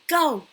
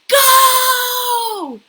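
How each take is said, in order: First: It is said at medium volume. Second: It is said very loudly.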